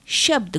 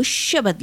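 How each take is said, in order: First: Said in the usual way. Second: "शब्द" as sha-bad, vowel between b and d; Punjabi pronunciation. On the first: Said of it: "शब्द को शब्द लिखते हैं". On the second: Shown as a demonstration. Lecturer showing the Punjabi form, "शब्द" said as sha-bad. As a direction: open the final cluster, "शब्द" as shabad. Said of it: "इसीलिए पंजाबी".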